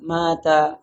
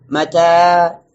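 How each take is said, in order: First: Mata softened, long vowel shortened at the end; "mata" sung out emotively, final a not held; with feeling. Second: Mata loud, with the last a held long; "mata" projected, ending in a long "aa"; long final vowel. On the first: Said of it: "Kalau kita pakai perasaan". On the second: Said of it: "Akhirnya yang panjang kita pendekkan". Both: Shown as a demonstration.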